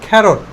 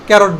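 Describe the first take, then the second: First: The first consonant is a breathy, aspirated k. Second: The first consonant is a plain k. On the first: The speaker calls it right. "এটাকে ক্যারট না বলে খ্যারট বলবো, only খ্যারট।" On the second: The speaker calls it wrong. "আমরা এর আগে কি বলতাম? ক্যারট বলতাম।"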